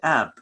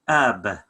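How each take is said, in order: First: The b sound is light and natural. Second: The b sound is heavy and exaggerated. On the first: It is said as in everyday speech. "the way we say it" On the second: It is slowed down to help learners. "I'm doing it just like ab for learning purposes"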